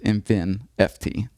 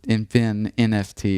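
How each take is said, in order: First: No separate letter N is said before F T. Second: A separate letter N is said before F T. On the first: The speaker calls it right. "It's just" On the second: The speaker calls it wrong. "I guess you don't have to"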